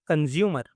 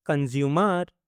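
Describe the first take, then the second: First: Said in the usual way. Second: consumer with a long open final "mar"; consumer lengthened for learners to follow. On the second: Shown as a demonstration. Word model, then drawn-out repeat.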